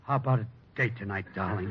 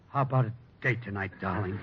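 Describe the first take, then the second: First: It is said with passion. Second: It is said with passion.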